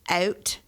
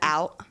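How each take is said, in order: First: It is said with a Canadian vowel, like ooh. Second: It is said with an ordinary American vowel.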